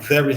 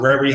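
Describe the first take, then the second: First: The word starts with a clear V sound. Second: The word starts with an R sound. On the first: The speaker calls it right. "instead of saying" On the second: The speaker calls it wrong. "I enunciated my V's as R's"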